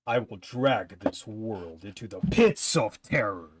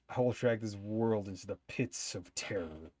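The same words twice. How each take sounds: First: It is said in a dramatic, theatrical villain voice. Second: It is said in an ordinary speaking voice.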